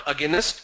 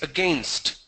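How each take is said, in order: First: Against said as "aginest"; mispronounced against, a-gi-nest; wrong extra syllable. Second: Said in the usual way. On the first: Shown as a demonstration. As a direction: give against three syllables, ending in "nest". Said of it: "it's not against". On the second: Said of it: "it's against".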